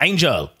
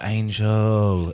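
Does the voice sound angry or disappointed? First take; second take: angry; disappointed. First: The name is said in an angry tone. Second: The name is said in a disappointed tone. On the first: The speaker is angry with her. "If I'm mad, I'll be like" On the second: The speaker is let down by her. "So if I'm disappointed, I'll be like"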